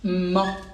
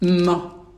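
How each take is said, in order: First: The consonant is short and plain. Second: The consonant is doubled and intensified.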